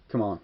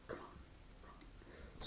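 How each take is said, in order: First: Said in the usual way. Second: Whispered under the breath; a hushed, voiceless urging. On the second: Retold or imitated. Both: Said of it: "It's like".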